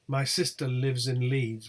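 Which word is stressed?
none. No single word gets special contrastive emphasis. Nothing is being contrasted. "would be the default uh, pronunciation"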